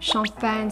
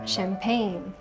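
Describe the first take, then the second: First: It is pronounced with French sounds. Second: It is pronounced with English sounds.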